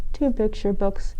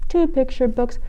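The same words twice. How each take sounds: The two takes are said the same way.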